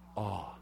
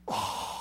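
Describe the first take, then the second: First: It is said plainly, without much feeling. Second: It is said with strong, heartfelt feeling.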